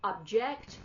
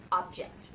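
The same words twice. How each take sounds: First: "object" said OB-jekt; "object" as the noun for a thing, OB-jekt; first-syllable stress. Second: "object" said ub-JEKT; "object" as the verb, ub-JEKT; second-syllable stress. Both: Shown as a demonstration. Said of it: "you say it differently".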